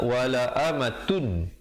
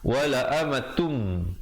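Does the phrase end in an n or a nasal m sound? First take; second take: n; nasal m. First: The phrase ends with a plain n sound. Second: The phrase ends with a held, nasal m sound. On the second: "bila datang mim, dengan kadar dengung dua harakat"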